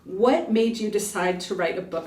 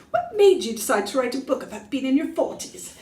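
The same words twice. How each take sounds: First: Said in the usual way. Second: A weak stab at a British accent, pitched up; attempted British accent. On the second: Shown as a demonstration. Asking herself the tour question in a bad British accent. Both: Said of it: "I should probably say it in a British accent".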